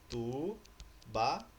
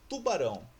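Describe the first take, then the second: First: "Tubarão" slowly as tu, ba, rão with pauses; syllable by syllable. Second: Said in the usual way. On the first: Shown as a demonstration. Teacher separating an easy word, "Tubarão" syllable by syllable. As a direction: break "Tubarão" into three separate beats. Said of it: "Como que eu separo essa palavrinha?". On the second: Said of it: "Próximas palavras".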